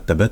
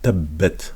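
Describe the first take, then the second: First: The b sound is short and single. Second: The b sound is held long and doubled. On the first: The speaker calls it wrong. "c'est pas tabat" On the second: The speaker calls it right. "on entend bien le son de la shadda"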